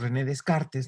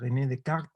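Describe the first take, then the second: First: The name is pronounced with Spanish sounds. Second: The name is pronounced with French sounds. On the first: "muy a menudo le decimos" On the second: "la pronunciación correcta es en francés"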